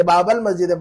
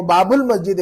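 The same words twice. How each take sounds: First: बाबल मस्जिद with "bal", not "bul"; "a" vowel ending. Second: बाबुल मस्जिद with "bul"; singular reading बाबुल, u sounded; "u" vowel ending. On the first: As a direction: say बाबल with an a before l. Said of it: "ये बाबल मस्जिद पढ़ रहे हैं". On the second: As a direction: say बाबुल with a short u before l. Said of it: "वो बाबुल मस्जिद होगा". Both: Shown as a demonstration.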